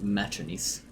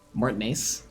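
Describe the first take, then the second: First: The name is said as Matronis. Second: The name is said as Martinez. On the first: The speaker calls it wrong. "I keep pronouncing, I think, Matronis wrong" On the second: The speaker calls it right. "I think it's actually pronounced Martinez"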